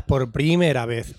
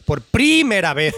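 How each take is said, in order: First: «primera» con la primera sílaba alargada: PRÍmera; acento mal puesto. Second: «primera» con PRÍ muy marcado y alto; acento mal puesto exagerado. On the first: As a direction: carga el acento en «pri» de «primera», despacio. («primera» como esdrújula, PRÍmera) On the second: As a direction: recalca aún más «pri» en «primera», alargándolo. («primera» como PRÍÍmera, machacando el acento) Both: Shown as a demonstration. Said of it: "no sabes dónde van los acentos".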